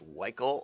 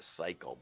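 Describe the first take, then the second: First: The word starts without a P or S sound. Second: The word starts with an S sound. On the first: "If the P is silent" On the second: "they want you to see that as an S"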